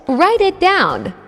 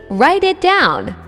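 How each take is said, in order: Both takes have the same delivery.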